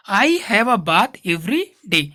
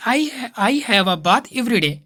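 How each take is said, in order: First: Slow, with a small gap between "every" and "day"; small pause before day. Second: Every day said as one word, no pause between every and day; run together, no pause. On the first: Teacher shows the right way, a small pause between every and day. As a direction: leave a short break between every and day. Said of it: "थोड़ा सा रुकना है". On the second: Teacher shows the wrong way, running every day together. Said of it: "ऐसे नहीं बोलना है". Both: Shown as a demonstration.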